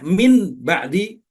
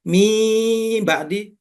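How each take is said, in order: First: An n sound comes before ba'di. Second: No nasal consonant comes before ba'di.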